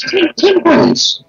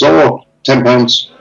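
First: Much higher, slow, disbelieving echo; incredulous repeat. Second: Said in the usual way. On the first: Retold or imitated. Repeating the window cleaner's price back, incredulous. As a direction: echo the price as if it's outrageous.

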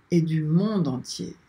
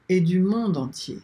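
The two takes are said the same way.

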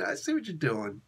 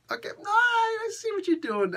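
First: Said in the usual way. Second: Squeaky high-pitched knowing voice. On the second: Pretend. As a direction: go way up, teasing. High put-on voice reacting.

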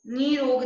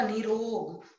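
First: निरोग with first vowel stretched to "nee"; wrong vowel length. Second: Said in the usual way. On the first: Shown as a demonstration. Teacher showing a misspelling, निरोग with long first vowel. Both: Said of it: "नहीं होता".

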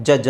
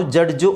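First: ಜಡ್ಜ್ as "juj", no d and no final vowel; D silent. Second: ಜಡ್ಜು with a hard d and final u; local pronunciation. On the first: Teacher telling pupils to silence D, ಜಡ್ಜ್ as a smooth "juj". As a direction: drop the d in ಜಡ್ಜ್. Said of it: "ಡಿ silent ಮಾಡಿ". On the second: Teacher quoting how we say it, ಜಡ್ಜು with d sounded and u added. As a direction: say ಜಡ್ಜು as "jud-ju". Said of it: "ನಾವು ಜಡ್ಜು ಅಂತ ಹೇಳ್ತೀವಿ". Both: Shown as a demonstration.

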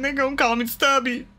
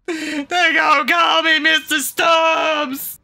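First: Said in the usual way. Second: Louder, higher, slow outraged shout. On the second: Real, not acted. Player wails about his new nickname, slow loud shout. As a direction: bellow the nickname in mock despair. Repeats line, then shouts it.

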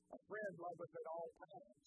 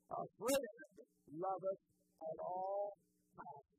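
First: Said in the usual way. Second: "A friend loveth at all times" louder and slowed, "all" drawn out; emphatic repeat. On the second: Shown as a demonstration. Pastor repeating the verse to his congregation, louder and slow. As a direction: hammer "A friend loveth at all times" home slowly and loud.

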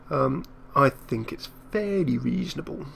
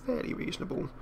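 First: Said in the usual way. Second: Much higher, softer echo. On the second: Real, not acted. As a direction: echo the phrase up high and soft. Repeats phrase in a different voice.

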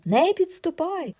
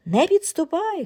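First: High cry, stress on не; repeated frightened shout. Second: High, shrill warning cry; frightened shout. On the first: Wife shrieks again at husband, higher stress on не. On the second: Wife shrieks at shaved husband, frightened shout. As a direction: keep the stranger away, loud. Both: Acted. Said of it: "кричить".

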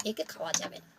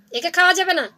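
First: Dropped low and soft, almost to himself; quiet refusal. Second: Higher and louder, firm and final; firm loud verdict after the hushed one; loud refusal. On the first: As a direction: mutter the verdict under the breath. Jackal refuses the corpse, repeated. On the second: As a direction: declare it out loud to his brother. Jackal repeats refusal loudly. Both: Acted.

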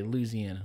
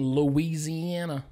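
First: Louisiana with the "ee" dropped: "Loo-zee-anna". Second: Louisiana in full, with "ee" after "Loo"; Louisiana as "Loo-ee-zee-anna". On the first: Retold or imitated. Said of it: "they'd always say". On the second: Shown as a demonstration. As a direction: sound out every syllable of Louisiana, "Loo-ee-zee-an-a". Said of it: "the one guy always saying".

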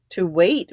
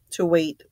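First: WAIT rising as a sharp question. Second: Said in the usual way. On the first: A narrator's reading. Vera questions the old general's words, sharply, WAIT rising. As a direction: echo it back, lifting "wait" at the end. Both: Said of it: "Vera said sharply".

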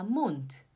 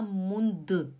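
First: "Mund" ending in a crisp T, like "munt"; final D as T. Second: "Mund" with a voiced D and an added vowel; voiced final D. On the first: Teacher modelling for students, "Mund" ending in a T sound. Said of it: "como se tivesse um T". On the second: Teacher showing students what not to say, "Mund" ending in "du". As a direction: end "Mund" wrongly as "mun-du". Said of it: "a gente não fala". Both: Shown as a demonstration.

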